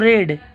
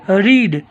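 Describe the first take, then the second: First: The vowel is short, like 'red'. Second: The vowel is long, like 'reed'. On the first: It is the past tense. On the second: It is the present tense.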